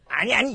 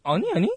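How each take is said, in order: First: Louder, higher denial; raised-voice mock "no, no"; exaggerated wrong version. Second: Mock dismissive "no, no"; corrected imitation. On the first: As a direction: overdo the protest, pitched up. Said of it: "이러진 않았지". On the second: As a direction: imitate the junior's quick brush-off. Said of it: "이렇게 했지". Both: Shown as a demonstration.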